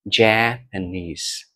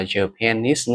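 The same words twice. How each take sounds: First: Japanese said slowly, main stress on the last syllable, ja-pa-NESE; correct stress demo. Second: Japanese stressed wrongly on the first syllable, JA-panese; wrong stress demo. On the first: Teacher modelling the right stress of Japanese for students. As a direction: say Japanese slow and clear, NESE stressed, JA lighter. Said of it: "trọng âm chính sẽ rơi vào nis". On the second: Teacher showing students the mistake they make, JA-panese. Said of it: "mình không đọc là Japanese nữa". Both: Shown as a demonstration.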